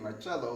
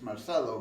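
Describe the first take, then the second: First: The name is said with Italian pronunciation. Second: The name is said with Spanish pronunciation. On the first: "it could be Marcello, like Italian" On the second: "in Spanish it's Marcelo"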